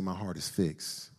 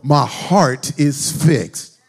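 First: It is said as a plain prompt. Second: It is said as a bold declaration.

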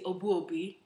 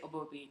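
First: The name is said with a Ghanaian pronunciation. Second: The name is said with a simplified anglicized pronunciation. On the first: This is how the name is said back home. "So in Ghana, my last name, you would say" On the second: This version is easier for local people to say. "But here, I just say Obuobi. Just keep it simple"

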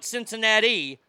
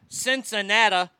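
First: It is said with a non-local pronunciation. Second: It is said with the local pronunciation. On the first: The speaker calls it wrong. "not Cincinnati" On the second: The speaker calls it right. "I'll say it the way they say it"

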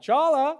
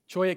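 First: The middle consonant is an L sound. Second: The middle consonant is a Y sound. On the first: The speaker calls it wrong. "It's not pronounced chala" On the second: The speaker calls it right. "It's actually a cholla. That's how you say it"

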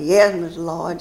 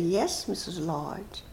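First: It is said in an angry, curt tone. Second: It is said in a pleased, friendly tone. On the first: The speaker is annoyed with the person addressed. "And if I'm angry, I say" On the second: The speaker is happy with the person addressed. "That's when I'm pleased with Mrs. Lodge"

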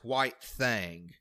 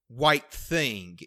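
First: The second word has an 'a' vowel, like 'thong'. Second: The second word has the vowel of 'thing'. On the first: The speaker calls it right. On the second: The speaker calls it wrong.

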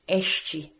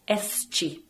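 First: It is said with a Rio Portuguese pronunciation. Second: It is said with a São Paulo Portuguese pronunciation. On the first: "The Rio pronunciation would be este" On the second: "The São Paulo Portuguese would be este"

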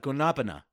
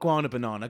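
First: It has four syllables, said as one word. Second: It has five syllables, with an extra syllable. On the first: The speaker calls it right. "That's the name of the fruit" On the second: The speaker calls it wrong. "Not Guana Banana"

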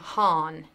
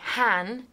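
First: The vowel is American, not rhyming with man. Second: The vowel is English, rhyming with man. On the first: The speaker calls it right. "because that is how an American would say it" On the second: The speaker calls it wrong. "as an English person, I instinctively want to say Han, like man"

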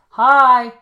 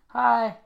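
First: The word is said at a louder volume. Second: The word is said at a normal, softer volume.

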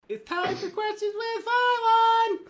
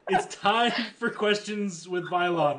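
First: It is said in a little girl voice. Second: It is said in a normal voice.

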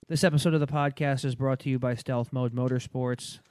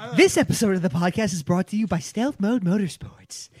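First: It is read in a flat monotone. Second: It is read with lively interest. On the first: The speaker calls it wrong. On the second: The speaker calls it right. "Act interested"

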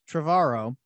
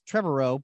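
First: The name rhymes with tomorrow. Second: The name does not rhyme with tomorrow. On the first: The speaker calls it right. "rhymes with tomorrow" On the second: The speaker calls it wrong. "Everyone thinks it's"

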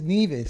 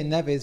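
First: The name is said the island's local way. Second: The name is said the British way. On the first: The speaker calls it right. "this is Nevis" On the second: The speaker calls it wrong. "People say Nevis"

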